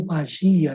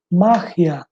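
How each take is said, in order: First: "magia" as ma-ZHI-a, stress on GI; Portuguese pronunciation. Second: "Magia" as MA-hia, first syllable stressed; Spanish pronunciation. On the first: Teacher correcting to Portuguese, stressed on GI. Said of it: "Em português". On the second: Teacher showing Spanish word, stressed on MA. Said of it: "em espanhol". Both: Shown as a demonstration.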